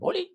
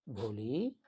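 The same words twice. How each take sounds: First: The name is shouted harshly. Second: The name is called softly and lovingly.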